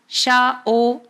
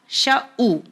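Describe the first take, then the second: First: The second vowel sounds like 'o'. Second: The second vowel sounds like 'u'. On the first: The speaker calls it wrong. "अक्सर लोग पेश को ओ का साउंड देते हैं" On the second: The speaker calls it right. "ये सही मखरज है और सही अदायगी है"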